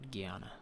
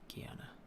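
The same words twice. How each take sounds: First: The middle 'an' sound is said fully and clearly. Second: The middle 'an' sound is swallowed and reduced. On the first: The speaker calls it wrong. "not Guyana" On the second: The speaker calls it right. "You kind of swallow the "and" sounding part"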